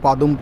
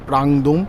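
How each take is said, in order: First: The name starts with 'pa' and has no 'ng'. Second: The name starts with 'pra' and has an 'ng'. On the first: The speaker calls it wrong. "উচ্চারণটা ভুল হচ্ছিল" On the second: The speaker calls it right. "ওটা হচ্ছে প্রাংদুম"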